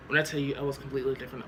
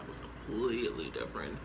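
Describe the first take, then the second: First: Said in the usual way. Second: "completely different" dropped low and soft for emphasis; emphatic repeat. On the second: Shown as a demonstration. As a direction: say "I was completely different" low and quiet, each word weighted.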